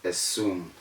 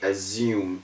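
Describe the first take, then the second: First: The double S is a hissing S sound. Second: The double S is a buzzing Z sound. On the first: The speaker calls it right. "instead of assume" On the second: The speaker calls it wrong. "People say assume"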